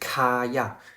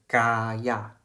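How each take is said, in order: First: The first sound is a breathy, aspirated k. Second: The first sound is a soft, unaspirated k. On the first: The speaker calls it wrong. "一个是卡亚" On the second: The speaker calls it right. "K 呢是读成G 的轻音"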